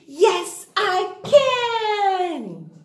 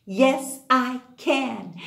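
First: Higher, louder rallying chant; bigger cheer. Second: Plain chant. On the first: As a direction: pump the class up with it. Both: Shown as a demonstration. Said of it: "kids chant their affirmation".

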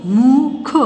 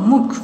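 First: मुख drawn out sound by sound; syllable by syllable. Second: Said in the usual way. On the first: Shown as a demonstration. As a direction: stretch मुख into separate slow sounds. (मुख को तोड़-तोड़ कर) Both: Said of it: "properly बोलना है".

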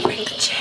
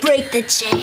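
First: Breathy whisper of "Break the chain"; whispered echo. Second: Said in the usual way. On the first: Shown as a demonstration. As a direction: echo it back in a hushed whisper.

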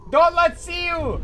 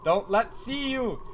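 First: Don't let see you! shouted loud and slow; Don't let see you! pushed out louder and slower; loud urgent warning. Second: Said in the usual way. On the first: Shown as a demonstration.

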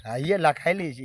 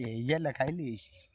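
First: Said in the usual way. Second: Soft echo. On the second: Acted. Repeat falls to a hush.

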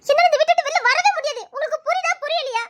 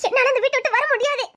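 First: Desperate cry that she cannot leave; desperate outburst. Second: Said in the usual way. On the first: Acted. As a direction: raise your voice, near breaking. Refusing, voice rising in despair.

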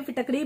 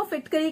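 First: फिटकरी said as fi-TAK-ree; alternative pronunciation. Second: फिटकरी said as FIT-ka-ree; Hindi pronunciation. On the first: Host giving viewers the other name, फिटकरी pronounced "fi-tak-ree". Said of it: "बहुत लोग इसको फिटकरी कहते हैं". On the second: Host giving viewers the Hindi name, फिटकरी pronounced "fit-ka-ree". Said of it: "फिटकरी भी कहते हैं". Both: Shown as a demonstration.

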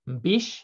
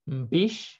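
The two takes are said the same way.

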